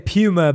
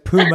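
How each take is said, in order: First: Puma is said the British way. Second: Puma is said the American way.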